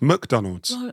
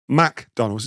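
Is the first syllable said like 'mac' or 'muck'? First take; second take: muck; mac. First: The first syllable sounds like 'muck'. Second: The first syllable sounds like 'mac'. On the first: The speaker calls it right. "No, it's McDonald's" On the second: The speaker calls it wrong. "you're putting the Mac from the burger on the front of the restaurant"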